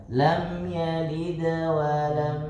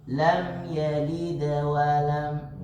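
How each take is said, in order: No difference in how they are said.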